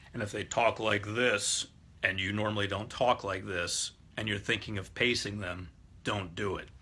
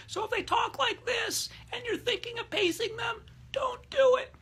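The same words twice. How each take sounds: First: Exaggerated low-pitched demo voice; mock deep talker. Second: Absurdly high squeaky falsetto; comically high-pitched demo voice. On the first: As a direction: drop the voice down deep. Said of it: "talk with a low voice". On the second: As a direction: push the voice right up to an extreme falsetto. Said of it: "talk with a high voice". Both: Shown as a demonstration.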